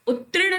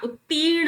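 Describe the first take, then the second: First: उत्तीर्ण said "ut-trin"; "tri" in the middle of उत्तीर्ण; wrong r placement. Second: उत्तीर्ण said "ut-teern"; long "ee" after the t in उत्तीर्ण; no "tri" in उत्तीर्ण, a long "tee"; correct long vowel. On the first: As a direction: put the r straight after t in उत्तीर्ण. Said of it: "उत्तीर्ण नहीं होता". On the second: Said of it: "उत्तीर्ण होता है". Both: Shown as a demonstration.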